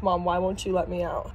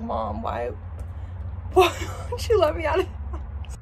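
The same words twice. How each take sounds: First: Lower, understated pleading dog; a hint of a puzzled pet; lightly voiced dog. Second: Mock-crying dog, breaking up high; high, whimpering pet voice; Winnie. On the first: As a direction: lightly voice the dog asking mom. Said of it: "Winnie's literally staring at me like". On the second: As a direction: plead as a poor dog, laughing through it. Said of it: "poor Winnie's like".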